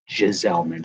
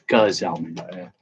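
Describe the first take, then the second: First: The first G is silent, not a hard G. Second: The first G is a hard G sound. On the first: The speaker calls it wrong. "I pronounced it with a silent G" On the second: The speaker calls it right. "hard G"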